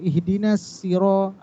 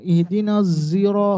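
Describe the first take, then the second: First: The word after ihdina starts with an s sound. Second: The word after ihdina starts with a z sound. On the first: This is the reading of a different transmission. "ada huruf sin" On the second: This is the reading of another transmission. "huruf zai"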